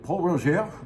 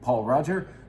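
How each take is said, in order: First: The name is said the French way. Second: The name is said the anglicized way.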